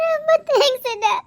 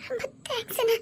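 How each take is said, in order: First: Said in the usual way. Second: Much softer, voice breaking into tears; softly weeping thanks to her husband's brother; choked tearful thanks. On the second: Acted. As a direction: whisper the thanks through crying. Wife thanks again, weeping.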